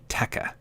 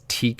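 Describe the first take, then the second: First: The word is said as two syllables, 'tekka'. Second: The word is said as one syllable, 'teek'. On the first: This pronunciation follows the word telekinesis. The speaker calls it right. "I think that should be Tekka. Like telekinesis" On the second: This is the pronunciation the speaker was told to use. The speaker calls it wrong. "Do I really have to pronounce this Teak?"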